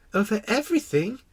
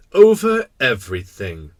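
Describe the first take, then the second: First: Put-on high questioning child voice; astonished little prince. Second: Loud king, matter-of-fact; simple kingly certainty. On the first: Little prince echoing the king's claim, astonished. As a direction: echo it as an amazed question. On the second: Acted. King answering with great simplicity, certain. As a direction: state it loudly and simply as king. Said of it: "with great simplicity".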